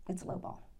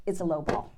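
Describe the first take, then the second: First: Breathy whisper of disappointment; whispered letdown. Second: Said in the usual way. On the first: Retold or imitated. Telling the congregation the offer disappointed, whispered. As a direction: let it fall to a hushed whisper. Deflated repeat of the news.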